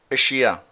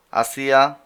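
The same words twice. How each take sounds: First: Said in the usual way. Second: আসিয়া said the Arabic way, a-SI-ya with a clear a at the start; আসিয়া pronounced as Arabs say it; Arabic pronunciation. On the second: Shown as a demonstration. Teacher models the Arabic word আসিয়া the Arabic way. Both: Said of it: "আরবিরা যেভাবে বলে ওভাবেই".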